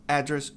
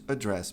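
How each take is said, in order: First: "address" as AD-dress; first-syllable stress. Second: "address" as a-DRESS; weak A and strong DRESS in "address"; final-syllable stress. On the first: Teacher recaps noun choice, front-stressed. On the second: Teacher recaps noun choice, end-stressed. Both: Shown as a demonstration. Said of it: "Quer falar endereço? Escolha".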